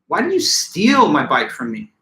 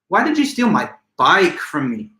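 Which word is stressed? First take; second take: steal; bike. First: The strongest emphasis falls on the word steal. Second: The strongest emphasis falls on the word bike. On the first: It could have been borrowed instead of taken. "all emphasis is added to the word steal" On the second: Of all things, this precious thing was the one taken. "Now I'm adding all the emphasis to bike"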